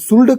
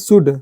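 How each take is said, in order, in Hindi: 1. इस शब्द में L की ध्वनि बोली जाती है। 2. इस शब्द में L की ध्वनि नहीं बोली जाती। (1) "हम शुल्ड कहाँ पढ़ रहे हैं" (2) "मतलब इसको शुड पढ़ रहे हैं"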